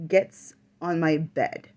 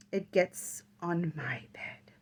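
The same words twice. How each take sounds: First: Said in the usual way. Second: Breathless whispered repeat, slowed. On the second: Real, not acted. A medium relives the thing climbing on her bed, whispering. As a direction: whisper it as if it might hear.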